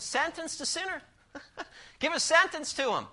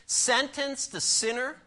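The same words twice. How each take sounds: First: Sentence the sinner said much higher, punchy; restating the blunt point, pitched up; higher repeat. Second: Sentence drawn out slowly, rising at the end; sermon point read slowly with a rising finish; slow rising emphasis. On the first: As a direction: repeat the point up high for effect. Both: Shown as a demonstration. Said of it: "That's straight, strong, isn't it?".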